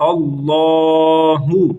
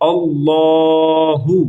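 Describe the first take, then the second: The two takes are said the same way.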